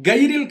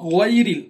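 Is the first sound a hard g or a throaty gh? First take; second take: hard g; throaty gh. First: It starts with a hard g sound. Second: It starts with a throaty gh sound. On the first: The speaker calls it wrong. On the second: The speaker calls it right.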